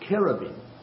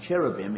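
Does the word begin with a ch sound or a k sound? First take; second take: k; ch. First: The word begins with a hard k sound. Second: The word begins with a ch sound. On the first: The speaker calls it right. "they use k as in cherubim" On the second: The speaker calls it wrong. "rather than how the English word is cherubim"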